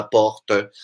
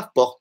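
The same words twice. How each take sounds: First: "porte" in two syllables, ending in a sounded schwa; porte with final E. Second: "porte" in one syllable, final E silent; porte without final E. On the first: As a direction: add an "uh" after the T in "porte". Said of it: "não fala porte". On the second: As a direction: end "porte" right on the T. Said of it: "a gente fala porte". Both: Shown as a demonstration.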